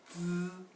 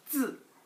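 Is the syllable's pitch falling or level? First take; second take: level; falling. First: The pitch stays high and level. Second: The pitch falls sharply from high to low. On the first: "일단 다 일성으로 발음하니까" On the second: "이거 일단 사성으로 발음하죠"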